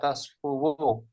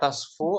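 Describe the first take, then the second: First: The word ends with an added 'wu' syllable. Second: The word ends without an added final syllable. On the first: It is the heavy, burdensome form. The speaker calls it wrong. "tasfuwu diucapkan dom ... namun sakil berat" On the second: It is the lighter, easier form. The speaker calls it right. "Tasfu lebih ringan kan?"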